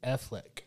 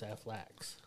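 First: The name ends in a plain k sound. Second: The name ends in a ks sound. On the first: "his name is Affleck" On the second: "if you want to say it like Stevie is Aflax"

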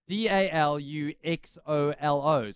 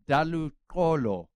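First: The name is said with a click sound. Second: The name is said without a click sound.

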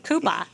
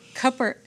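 First: The final R sound is dropped, Boston-style. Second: The final R sound is clearly pronounced. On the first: The speaker calls it wrong. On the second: The speaker calls it right.

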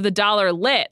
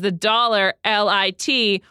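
First: LIT is said as the single word lit. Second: LIT is spelled out as separate letters.

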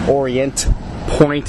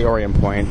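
First: The t at the end of Orient is pronounced. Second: The t at the end of Orient is dropped. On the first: This is how outsiders say the name. "if you're not from here" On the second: This is how locals say the name. "I say Orient Point. ... you don't pronounce the T if you're from here"

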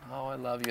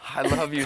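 First: It is said in a soft, doting way. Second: It is said in a tough, gruff way.

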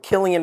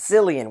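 First: The name begins with a hard K sound. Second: The name begins with an S sound. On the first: "we should be calling it Killian" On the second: "it's Cillian with an S"

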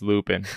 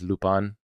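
First: The name is said as an American reads it. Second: The name is said the original, non-English way. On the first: "So it's like it's Lupin. I'm just reading it" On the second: "the proper pronunciation of Lupin is Lupin"

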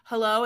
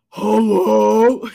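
First: It is said in a normal voice. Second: It is said in a deep, husky old-man voice.

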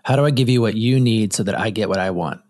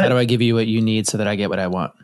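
First: It is said slowly. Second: It is said fast.

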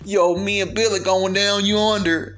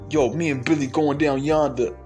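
First: It is said in a put-on country accent. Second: It is said in a New York accent. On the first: "try to sound as country as you possibly can" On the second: "let me get into my New York accent"

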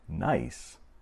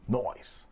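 First: It is said plainly, in an ordinary American accent. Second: It is said with a put-on British-style punk accent. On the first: Something is good. "Instead of saying simply nice" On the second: Something is good, said in a playful punk style. "they would fist pump and kind of speak British"

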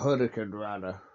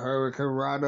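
First: The name is said with a Spanish accent. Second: The name is said with a plain English accent.

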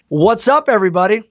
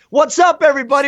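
First: It is said with moderate, forced energy. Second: It is said with over-the-top amplified energy.

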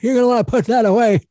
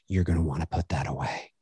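First: It is said in a put-on old man voice. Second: It is said in a dark, ominous voice. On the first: "Or an old man voice" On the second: "I said it in a very sort of ominous tone"

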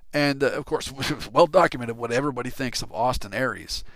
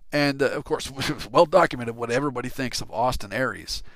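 No difference in how they are said.

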